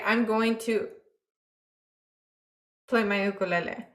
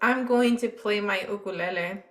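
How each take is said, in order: First: The phrase is broken up by awkward pauses. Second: The phrase flows smoothly without any pauses. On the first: The speaker calls it wrong. "You're not going to say" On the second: The speaker calls it right. "there's no random pauses in between"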